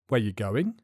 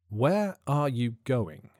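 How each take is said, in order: First: It is said fast with words contracted. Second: It is said slowly with every word full.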